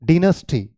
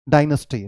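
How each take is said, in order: First: डिनेस्टी as "DIN-us-tee"; British डिनेस्टी, first syllable like "din"; British pronunciation. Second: डायनेस्टी as "DIE-nus-tee"; American डायनेस्टी, reduced middle vowel; American pronunciation. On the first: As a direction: say डिनेस्टी with a short i at the start. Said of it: "British English में". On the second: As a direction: repeat डायनेस्टी starting like "die". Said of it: "American है". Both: Shown as a demonstration.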